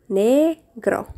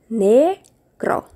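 No difference in how they are said.

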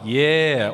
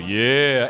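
First: It is said in a normal voice. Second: It is said in a much deeper voice.

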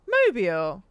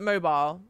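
First: The word is said in a non-British way. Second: The word is said in a British way.

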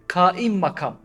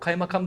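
First: The first part is said as 'kaim'. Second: The first part is said as 'kay'. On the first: The speaker calls it right. "Yani valinin yerinde oturan" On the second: The speaker calls it wrong. "O kaymakam değil aslında"

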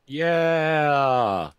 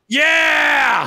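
First: It is said flatly, with little energy. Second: It is said with moderate, lively energy.

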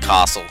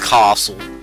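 First: Castle is said in an Australian accent. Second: Castle is said in an American accent.

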